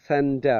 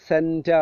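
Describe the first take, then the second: The two takes are said the same way.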